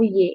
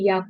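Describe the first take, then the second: First: The letter name ends in an 'e' vowel. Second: The letter name ends in an open 'a' vowel. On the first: The speaker calls it wrong. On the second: The speaker calls it right.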